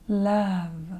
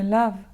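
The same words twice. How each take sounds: First: The vowel is stretched out, sultry. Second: The vowel is short and plain.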